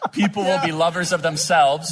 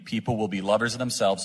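First: It is read at a slower, deliberate pace. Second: It is read at a normal, quicker pace.

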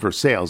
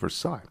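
First: The name is said in a Midwestern way. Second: The name is said in a French way. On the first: It names the small town in Ohio. "in classic Midwestern fashion, the name of the town where Weaver Eggs is located is actually called Versailles" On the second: It names the French palace. "as opposed to the French palatial pronunciation of Versailles"

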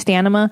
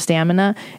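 First: The n sound comes before the m sound. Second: The m sound comes before the n sound. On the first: It is a joke mispronunciation. The speaker calls it wrong. "We say a lot of words incorrectly on Your Mom's House" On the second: It is the standard pronunciation. The speaker calls it right. "instead of stamina"

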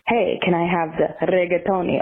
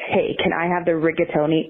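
First: It is said Italian-style with rolled R's. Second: It is said with a plain American accent.

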